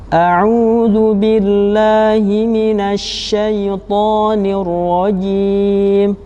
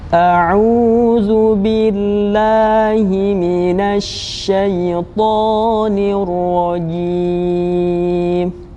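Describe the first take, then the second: First: It is recited slowly, slightly quicker than very slow. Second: It is recited very slowly and calmly. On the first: "lebih cepat tetapi tetap tetap lambat" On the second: "lebih tenang dan perlahan-lahan"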